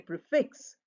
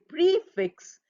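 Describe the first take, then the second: First: The stress is on the second syllable. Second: The stress is on the first syllable. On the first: The speaker calls it right. "The stress falls on the fix" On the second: The speaker calls it wrong. "We don't say prefix. We don't st- stress that"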